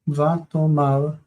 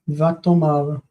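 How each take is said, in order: First: The final syllable has an 'ah' vowel. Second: The final syllable has an 'ah' vowel.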